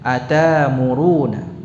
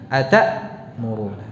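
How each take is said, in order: First: The glottal stop becomes a lengthened a vowel. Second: A clear glottal stop is pronounced before the m. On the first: "bisa dibaca begini... Jadi hamzahnya diibdal" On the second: "Hamzah sukun itu kita baca dengan apa? Tahqiq, ya. Jelas"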